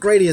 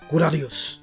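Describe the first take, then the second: First: It is said in an English-style pronunciation. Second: It is said in a Japanese-style pronunciation. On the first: This sounds better in English. "sounds better in English" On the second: This is probably the proper way to say it. "with Japanese pronunciation, often you leave the vowel sound kind of off at the end or skip over it"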